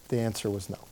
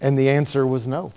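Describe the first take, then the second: First: Dropped soft, letting the no sink in; quiet echo. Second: Said in the usual way. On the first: Real, not acted. Preacher echoes the verdict to his congregation, much softer. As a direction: say it again much softer, almost to yourself.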